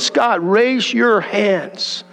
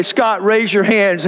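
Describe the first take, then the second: First: God asks again, patient and unhurried; slow gentle command. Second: Plain. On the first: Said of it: "He said". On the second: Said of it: "heard the voice say". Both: Retold or imitated.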